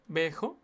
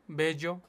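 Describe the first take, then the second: First: "bejo" with a j sound, like the Spanish jota; "bejo", the ll turned into a hard throaty h. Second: "bello", the ll said as a plain Spanish y. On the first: To himself, unsure of the rapper's name, says it with a jota. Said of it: "No sé cómo se le dice". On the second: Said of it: "Yo le digo bello". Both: Shown as a demonstration.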